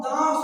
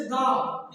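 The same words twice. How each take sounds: First: दाव with a nasal long आ, as दाँव; nasalized vowel. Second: Said in the usual way. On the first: Shown as a demonstration. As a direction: let air through the nose on the आ of दाव. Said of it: "मुख तथा नाक दोनों से". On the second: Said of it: "केवल हमारे मुख से वायु".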